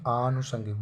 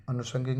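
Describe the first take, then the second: First: आनुषंगिक with long opening aa; correct pronunciation. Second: अनुषंगिक with short opening a; wrong pronunciation. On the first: Teacher says first letter must be big, long-aa आनुषंगिक. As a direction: stretch the first vowel of आनुषंगिक. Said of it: "बड़ा होना चाहिए". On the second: Teacher rejects the misspelling, short first vowel in अनुषंगिक. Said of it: "अनुषंगिक नहीं". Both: Shown as a demonstration.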